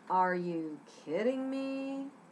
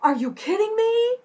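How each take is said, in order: First: It is said in a sarcastic tone. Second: It is said in an excited tone.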